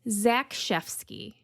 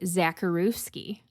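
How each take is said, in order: First: The name is said with its Polish sounds. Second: The name is read letter by letter, English style. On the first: The speaker calls it right. "And it's Zakrzewski" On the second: The speaker calls it wrong. "I was definitely going to say Zakrzewski"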